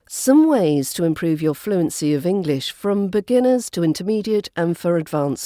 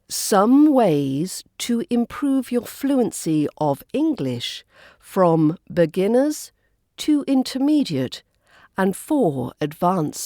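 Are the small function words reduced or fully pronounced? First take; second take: reduced; fully pronounced. First: The function words are reduced and quickly skimmed over. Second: The function words are fully pronounced in strong form. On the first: "The first version used the weak form" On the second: "my second version was using the full, strong form of each word"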